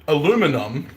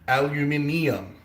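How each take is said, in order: First: It is said with four syllables, ending in -um. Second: It is said with five syllables, ending in -ium. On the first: This is the American form. The speaker calls it wrong. "aluminum doesn't have the ium in it" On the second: This is the British form. The speaker calls it right. "It's the ium makes it a metal"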